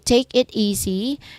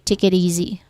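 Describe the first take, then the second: First: The word it ends in a clear t. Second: The word it ends in a soft d. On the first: The speaker calls it wrong. "instead of saying it" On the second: The speaker calls it right. "you say id"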